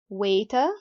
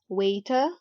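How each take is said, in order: First: The t is pronounced as a clear t. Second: The same.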